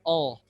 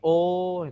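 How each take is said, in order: First: The vowel is said without rounding the lips. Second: The vowel is said with strongly rounded lips. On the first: The speaker calls it right. "Dia tidak monyong" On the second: The speaker calls it wrong. "Kalau o kan monyong"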